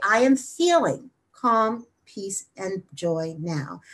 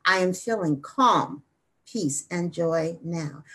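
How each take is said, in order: First: Slow affirmation with FEELING stressed. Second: CALM drawn out and leaned on; slow affirmation with CALM held long; stress on CALM. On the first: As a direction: lean on "feeling", then slow right down. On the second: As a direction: lean slowly on "calm", then ease off. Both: Shown as a demonstration. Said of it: "place emphasis on a different word".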